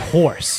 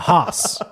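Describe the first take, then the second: First: The word is said in a standard way. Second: The word is said in a broad Boston way. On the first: "she doesn't say horse" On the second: "It's a hoss"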